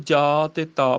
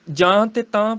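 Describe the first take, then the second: First: ਜਾ and ਤਾ with pure aa; correct oral vowels. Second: ਜਾਂ and ਤਾਂ with nasal aa; wrong nasals shown. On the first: Teacher correcting recitation, plain-vowelled ਜਾ, ਤਾ. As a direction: keep ਜਾ and ਤਾ un-nasalised. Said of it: "ਪਾਠ ਕਰਨਾ". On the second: Teacher showing what not to recite, nasal ਜਾਂ, ਤਾਂ. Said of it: "ਪਾਠ ਨਹੀਂ ਕਰਨਾ". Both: Shown as a demonstration.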